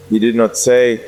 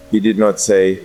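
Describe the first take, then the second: No difference in how they are said.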